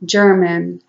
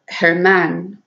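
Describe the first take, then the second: First: The name begins with a J sound. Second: The name begins with a breathy H-like sound. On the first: "here in in the States, they pronounce it German" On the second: "in Spanish, German was pronounced Herman"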